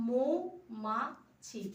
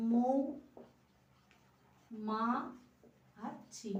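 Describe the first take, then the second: First: মৌমাছি drawn out slowly, each syllable apart. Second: মৌ, মা, ছি said one by one with long gaps; split syllables. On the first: Teacher showing students how to split মৌমাছি, slow and syllabic. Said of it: "আমি কিভাবে উচ্চারণ করব". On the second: Teacher dictating the syllables of মৌমাছি one at a time. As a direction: break মৌমাছি into মৌ মা ছি with pauses. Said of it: "তাহলে আমি কি লিখব". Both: Shown as a demonstration.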